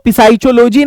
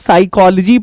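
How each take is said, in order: First: The word starts with an audible p sound. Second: The word starts with s; no p sound. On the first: The speaker calls it wrong. "इसको पिसाइचोलॉजी नहीं" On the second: The speaker calls it right. "साइकोलॉजी पढ़ते हैं"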